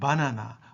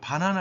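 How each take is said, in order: First: The first consonant is plain and soft. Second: The first consonant is tense and hard. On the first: This is how it is said in Japanese. "일본에서는 ... 이와 같이 발음하는 거죠" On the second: This is how it is said in Korean. "된 소리로 발음하잖아요"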